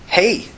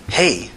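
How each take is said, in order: First: High, friendly hello. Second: Smooth, rich hello at an easy pitch; smooth but rich. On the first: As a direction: greet them lightly, pitched up. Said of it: "in a friendly tone". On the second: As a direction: answer the greeting smoothly, unhurried. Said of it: "Her voice was smooth but rich". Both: A narrator's reading.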